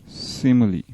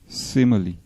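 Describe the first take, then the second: No difference in how they are said.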